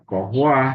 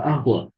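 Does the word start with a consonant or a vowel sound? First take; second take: consonant; vowel. First: The word starts with a hard k-like consonant. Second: The word starts directly with a vowel. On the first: This is how the word is written. "tetap tulisannya kohwa" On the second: This is how the word is actually spoken. "tapi dibacanya ya, wala ahwa"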